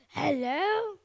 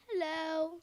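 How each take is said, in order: First: It is said in an angry tone. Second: It is said in a neutral tone.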